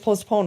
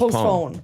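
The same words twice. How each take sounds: First: The second part sounds like 'pone'. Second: The second part sounds like 'phone'. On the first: The speaker calls it right. "but it's postpone" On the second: The speaker calls it wrong. "one word that I said wrong for a long time"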